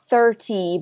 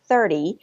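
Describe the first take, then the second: First: The middle consonant is a clear T sound. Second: The middle consonant is a soft D sound. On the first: The speaker calls it wrong. "or not thirty" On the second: The speaker calls it right. "changing that T to a D sound"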